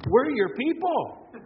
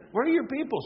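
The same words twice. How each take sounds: First: We're your people, slowed with a falling people; preacher drawing out we're your people, slow and high; drawn out. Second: Your punched, people falling; preacher punching your in the repeat; stress on your. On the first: Repeated slogan, slowed. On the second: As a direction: lean on your in we're your people. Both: Real, not acted.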